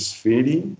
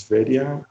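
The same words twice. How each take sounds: First: "Sferi" ending on an ee sound; trying a pronunciation. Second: "Sveria" with an extra uh after the ee; alternative pronunciation. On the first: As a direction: offer "Sferi" as a questioning guess, two syllables. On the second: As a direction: offer "Sveria" as a questioning guess, rising at the end. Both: Shown as a demonstration. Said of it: "how you pronounce it".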